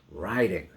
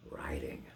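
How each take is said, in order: First: Riding called out and falling; loud return. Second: Breathy hush on riding; whispered echo. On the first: Reciting the refrain, last riding called out. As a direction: snap back to full voice. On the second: Reciting the refrain, the echo whispered low. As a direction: drop to a whisper like hoofbeats far off. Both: Acted.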